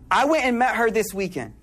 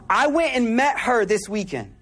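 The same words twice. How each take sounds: The two takes are said the same way.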